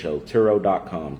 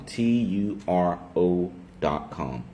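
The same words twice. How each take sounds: First: Said in the usual way. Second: T U R O dot com, each letter slow and separate; spelled out slowly. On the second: Shown as a demonstration.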